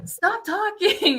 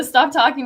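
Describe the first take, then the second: First: High, drawn-out mock telling-off; imitated scolding. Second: Said in the usual way. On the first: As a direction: mimic a singer shushing a heckler, half laughing. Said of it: "That's when [name] was like". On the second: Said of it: "with the "stop talking" moment".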